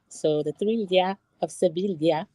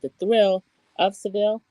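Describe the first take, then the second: First: The city name ends with a 'vee-ya' sound. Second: The city name ends with a 'veel' sound. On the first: This is how a cast member says the city is pronounced. "she's saying it's Sevilla" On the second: This is the episode's English title. "It's called The Thrill of Seville"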